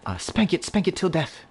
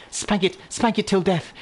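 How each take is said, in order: First: Said in the usual way. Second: Higher mock-posh British accent. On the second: Shown as a demonstration. Gamer reads the item line to chat in British accent. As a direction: put on a British accent for the gag. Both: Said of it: "I'll just read that in a British voice".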